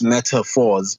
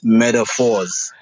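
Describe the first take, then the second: First: The middle consonant is a T sound. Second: The middle consonant is a D sound. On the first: This is how most people say the name. "when you pronounce it on your end" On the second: This is how the artist says his own name. "when I pronounce it on my end"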